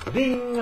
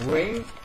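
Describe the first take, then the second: First: The R sounds like a Korean flap. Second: The R sounds like an English rounded R. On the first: The speaker calls it wrong. "입술 안 내밀고 발음하면 ... 완전히 한국어예요" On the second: The speaker calls it right. "입술 내밀고 ... 입술만 내밀면 영어가 되는 거예요"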